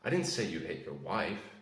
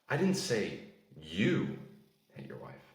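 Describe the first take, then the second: First: The word 'wife' carries the stress. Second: The word 'you' carries the stress. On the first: Someone else was hit. "That implies that you hit someone else" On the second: Someone else did it. "Someone else did, not you"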